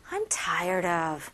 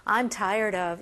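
First: Said in the usual way. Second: Weary, lower-pitched sigh of a phrase; 감정을 넣어서; with feeling. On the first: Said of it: "이거보다는". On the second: Shown as a demonstration. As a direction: sound really fed up. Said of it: "감정을 또 넣어야 되겠죠".

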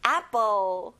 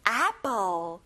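First: Apple with a wide-open mouth, an open a sound; Apple, jaw dropped on the first vowel. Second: Apple said the Korean way, like aepeul; a flat Korean apple before the correction; apple as a Korean loanword; Korean-style apple. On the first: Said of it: "입을 크게 벌려서 아로 발음해야 돼요". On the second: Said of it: "여러분, 애플이 아니에요". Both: Shown as a demonstration.

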